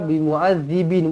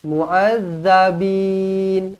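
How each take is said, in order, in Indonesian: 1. Vokal setelah z ganda adalah i. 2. Vokal setelah z ganda adalah a. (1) "Bukan baris bawah ya" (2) "baris atas"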